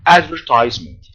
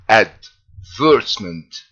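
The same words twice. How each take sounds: First: It is said with an American pronunciation. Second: It is said with a British pronunciation. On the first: "the American pronunciation is advertisement" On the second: "I'm going to pronounce it in the British way first"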